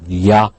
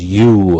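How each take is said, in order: First: The word is reduced to a short weak vowel. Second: The word is said with its full vowel.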